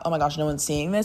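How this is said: It sounds worried and anxious.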